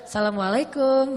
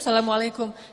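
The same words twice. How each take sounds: First: It is said in a flirtatious, suggestive tone. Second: It is said as a plain, ordinary greeting.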